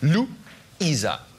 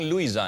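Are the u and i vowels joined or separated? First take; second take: separated; joined. First: The u and i are spoken as separate syllables. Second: The u and i glide together in one syllable. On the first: The speaker calls it right. "zwei Vokale hintereinander werden abgesetzt artikuliert" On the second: The speaker calls it wrong. "Viele sagen Luisa"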